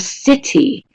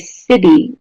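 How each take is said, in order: First: The T is pronounced as a clear T. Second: The T is pronounced like a D. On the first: "whether you pronounce the T in city like the British do" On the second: "which sounds more like a D"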